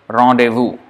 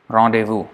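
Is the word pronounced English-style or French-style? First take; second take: French-style; French-style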